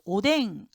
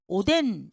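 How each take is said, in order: First: The word ends with an ng sound. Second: The word ends with an n sound. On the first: "백 퍼센트 오뎅 이것도 아니고" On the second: "오덴 이것도 아닙니다"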